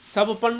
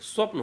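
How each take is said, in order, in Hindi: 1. p और n के बीच a स्वर आता है। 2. p और n बिना किसी स्वर के जुड़े हैं। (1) "स्वपन नहीं होता है" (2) "स्वप्न होता है"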